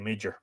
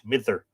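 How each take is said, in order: First: The middle consonant sounds like 'j'. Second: The middle consonant sounds like 'th'. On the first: The speaker calls it wrong. "But I always say Midger, and I'm probably butchering it" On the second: The speaker calls it right. "if the D falls between two vowels, it's pronounced like a T H"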